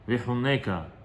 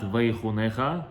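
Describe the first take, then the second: First: The last syllable starts with a hard 'k'. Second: The last syllable starts with a throaty 'ch'. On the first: The speaker calls it right. "it is Vihuneka" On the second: The speaker calls it wrong. "not Vaychunecha"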